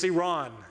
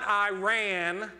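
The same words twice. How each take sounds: First: It does not sound like 'I ran'. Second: It sounds like the phrase 'I ran'. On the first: The speaker calls it right. "Iran is how you pronounce that nation" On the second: The speaker calls it wrong. "Iran is when you start jogging somewhere"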